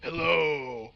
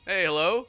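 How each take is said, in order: First: Imitating the sister's mocking echo of his hello in a put-on voice. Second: Imitating his own young voice answering the phone, a touch higher; a boyish phone hello; answering the phone as a kid, mildly higher. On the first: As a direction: parrot his hello back to tease him. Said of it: "immediately mocked my voice". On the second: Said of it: "I'm like".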